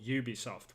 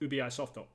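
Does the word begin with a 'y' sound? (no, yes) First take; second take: yes; no. First: The word begins with a 'y' sound. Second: The word begins without a 'y' sound. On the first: This is how people in the UK say it. "people call it Ubisoft with a Y at the at the beginning" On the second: This is how people in Japan say it. "you go to Japan, it's completely different"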